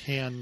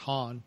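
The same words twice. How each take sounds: First: The vowel sounds like the one in ham. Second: The vowel sounds like the one in hom. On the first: The speaker calls it right. "I do think it's pronounced Han" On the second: The speaker calls it wrong. "not Han, because you eat ham, not hom"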